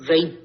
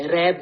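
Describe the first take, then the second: First: ریب said the Arabic way as raib, with an ai diphthong; ریب with the Arabic ai sound; correct Arabic pronunciation. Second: ریب said the Urdu way as reeb, long ee; ریب with the Urdu long ee, marked as wrong; wrong Urdu pronunciation. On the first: Teacher gives students the correct Arabic ریب as raib. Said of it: "عربی میں pronunciation ریب نہیں". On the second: Teacher shows students the wrong reading of ریب as reeb. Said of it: "اس کی pronunciation ریب ہے، ریب نہیں". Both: Shown as a demonstration.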